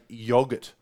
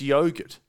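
First: It is said the British way. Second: It is said the Australian way. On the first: The speaker calls it wrong. "I cannot stand people who say yogurt" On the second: The speaker calls it right. "Australia, it's yogurt"

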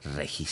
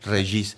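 First: The name is pronounced with a Spanish pronunciation. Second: The name is pronounced with a French pronunciation. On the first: "en México se dice Regis" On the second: "Yo lo andaba diciendo en francés"

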